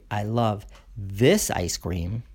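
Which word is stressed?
this. The stress falls on the word this. Only this particular ice cream is loved. "then I only love this ice cream"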